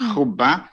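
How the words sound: The word ends in an a vowel. This is the Eastern dialect form. "احنا اللهجة الشرقية الاسم ينتهي بأ"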